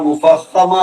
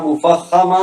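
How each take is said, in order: Both takes have the same delivery.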